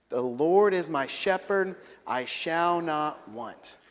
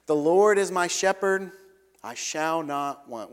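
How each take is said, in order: First: Very slow, measured unison reading; slow congregational recitation. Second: King James verse recited, slowing on the second half; recited scripture. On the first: Preacher leading the congregation in the psalm, slow call to recite. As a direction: lead the room through it word by word. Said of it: "Will you say that with me?". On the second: Preacher quoting Psalm twenty-three to the church, reverent recitation. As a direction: quote the psalm with weight. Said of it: "we pull out the old King James". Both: Shown as a demonstration.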